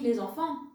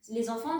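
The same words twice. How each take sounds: First: The final T and S stay silent. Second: The final T and S are sounded aloud. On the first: The speaker calls it right. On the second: The speaker calls it wrong. "ça n'existe pas"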